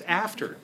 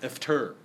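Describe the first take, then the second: First: The stress falls on the first syllable. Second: The stress falls on the second syllable. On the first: The speaker calls it right. "it's after" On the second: The speaker calls it wrong. "not after"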